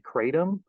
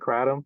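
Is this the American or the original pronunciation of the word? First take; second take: American; original. First: It is said the common American way. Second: It is said closer to the Southeast Asian way. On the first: "In the United States, people tend to say kratom" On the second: "the actual pronunciation is more like kratom"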